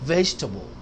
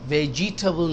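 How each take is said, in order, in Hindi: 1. बीच का अक्षर छोड़ दिया जाता है। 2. बीच का अक्षर पूरा बोला जाता है।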